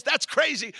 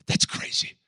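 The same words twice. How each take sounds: First: Higher, louder exclamation; amazed loud declaration; exclaimed. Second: Breathless whisper of amazement; voiceless awe; whispered aside. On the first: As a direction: throw it out to the room. Preacher repeats phrase louder. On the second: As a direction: hush it like a secret. Preacher repeats phrase later. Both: Acted.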